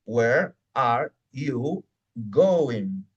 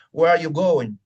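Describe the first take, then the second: First: Very slow, a gap after each word; each word separate and drawn out. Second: Loud, run-together phrase at normal speed; whole phrase in one go, firmly; said as one chunk. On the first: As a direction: stretch out "Where... are... you... going". Teacher splits the chunk word by word. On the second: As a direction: say "Where are you going" as one connected chunk. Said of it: "Cuando yo digo". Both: Shown as a demonstration.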